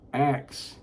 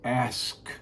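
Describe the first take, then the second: First: The k sound comes before the s. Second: The s sound comes before the k. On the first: The speaker calls it wrong. "The word is not ax" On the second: The speaker calls it right. "The word is ask"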